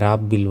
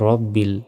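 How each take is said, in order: First: The first vowel is an open 'a' sound. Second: The first vowel is a rounded 'o' sound. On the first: The speaker calls it wrong. "আমরা অনেকে এখানে রাব বিল বলি, এটা ভুল" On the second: The speaker calls it right. "বলতে হবে রব বিল"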